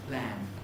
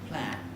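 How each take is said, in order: No difference in how they are said.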